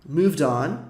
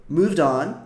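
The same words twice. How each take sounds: Both takes have the same delivery.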